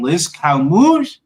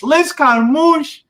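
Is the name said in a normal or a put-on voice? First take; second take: normal; put-on. First: It is said in the speaker's normal voice. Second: It is said in a put-on, showy voice.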